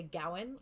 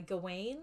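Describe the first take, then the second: First: "Gowan" said GOW-un; variant pronunciation. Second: "Gawain" said guh-WAYN; variant pronunciation. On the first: Host showing how others say it, "Gowan" as GOW-un. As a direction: say "Gowan" stressed up front, rhyming with cow. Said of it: "Some people say Gowan". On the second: Host showing how some people say it, "Gawain" as guh-WAYN. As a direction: say "Gawain" with a long stressed WAYN. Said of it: "Some people say, uh, Gawain". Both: Shown as a demonstration.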